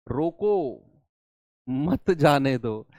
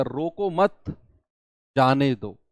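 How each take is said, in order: First: "रोको" alone, long pause, then "मत जाने दो" in one slow run; pause after रोको. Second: "रोको मत" said together, a clear pause, then "जाने दो" dropping lower; group रोको with मत and stop before जाने दो; pause after मत. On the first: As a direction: stop dead after रोको, join मत to जाने दो. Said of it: "इसी कॉमा को हटाकर". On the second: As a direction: comma break heard right after "मत". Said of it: "मैंने कॉमा बीच में लगा दिया". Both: Shown as a demonstration.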